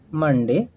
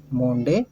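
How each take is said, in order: First: "मंडे" with a short 'uh' first vowel; correct Monday. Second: "मोंडे" with a long 'oh' first vowel; misread Monday. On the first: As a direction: say "मंडे" as MUN-day. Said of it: "बल्कि मंडे पढ़ते हैं". ("मंडे" में छोटा 'अ' बोलें) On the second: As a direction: say Monday wrongly as "मोंडे", MOHN-day. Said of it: "मोंडे नहीं पढ़ते". ("मोंडे" में 'ओ' की मात्रा) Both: Shown as a demonstration.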